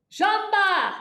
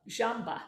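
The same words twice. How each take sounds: First: "Jamba!" barked high and loud from the belly; stage yell. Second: Said in the usual way. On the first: Shown as a demonstration. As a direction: punch "Jamba!" out with the abs. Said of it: "This is what we do for stage yelling". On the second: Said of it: "and we're going to say".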